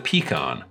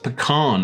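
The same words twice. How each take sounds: First: The word is pronounced in a non-American way. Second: The word is pronounced in the American way.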